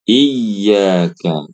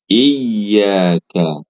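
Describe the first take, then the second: No difference in how they are said.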